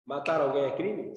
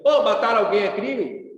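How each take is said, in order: First: Said in the usual way. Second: Louder, pushy relative barging in with the question; a loud mock uncle demanding an answer; loud uncle asking. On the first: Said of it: "Se eu perguntar pra você". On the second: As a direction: call it out like an annoying uncle at Sunday lunch. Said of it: "chega assim".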